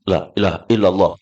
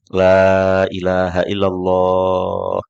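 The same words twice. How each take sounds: First: It is said fast and hurried. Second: It is said slowly and calmly.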